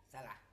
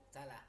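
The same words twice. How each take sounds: No difference in how they are said.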